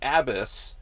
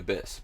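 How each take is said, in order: First: The first vowel is a full, clearly sounded A. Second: The first vowel is a weak, reduced sound. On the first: "I said abyss weird. ... I wanted to enunciate the A in it" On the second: "I usually would say abyss"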